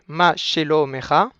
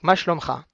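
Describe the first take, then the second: First: A short vowel is pronounced after sh and m. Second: The short vowels are dropped, giving shlomcha. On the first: This is the formally correct form. "Techniquement, ça doit se prononcer" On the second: This is the everyday conversational form. "nous allons le prononcer euh, de manière euh, conversationnelle"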